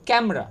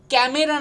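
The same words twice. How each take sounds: First: ক্যামেরা as "KAM-ra"; correct pronunciation. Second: ক্যামেরা as "ka-me-ra"; full middle "e" in ক্যামেরা; three-syllable ক্যামেরা; common mispronunciation. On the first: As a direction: drop the middle "e" of ক্যামেরা. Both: Shown as a demonstration. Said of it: "ক্যামেরা না কিন্তু".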